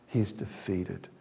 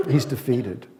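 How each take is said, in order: First: Lower, softer and slower, sinking; deflated. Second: Said in the usual way. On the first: Shown as a demonstration. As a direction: let the air go out of him.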